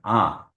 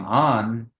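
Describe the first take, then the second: First: The vowel is nasalized with no separate n. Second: The vowel ends with a separate n sound. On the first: The speaker calls it right. "you're saying ah" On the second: The speaker calls it wrong. "you're not saying on"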